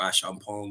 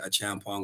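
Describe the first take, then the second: First: The name is pronounced with French sounds. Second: The name is pronounced without French sounds. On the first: "if you're French" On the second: "Some say"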